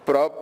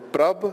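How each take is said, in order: First: The final consonant is a plain p sound. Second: The final consonant is a blended, b-like sound. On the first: The speaker calls it wrong. "instead of prap" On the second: The speaker calls it right. "Pabba will give the sound of pabba and babba as in prab"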